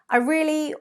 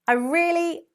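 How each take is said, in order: The two takes are said the same way.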